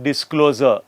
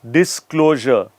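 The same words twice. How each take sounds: First: The middle consonant is a plain z sound. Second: The middle consonant is a zh sound. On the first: The speaker calls it wrong. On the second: The speaker calls it right.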